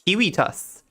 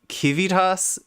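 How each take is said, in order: First: It begins with K, with W in the middle. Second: It begins with K, with V in the middle. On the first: "he pronounced his V's like W" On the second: "used the hard C"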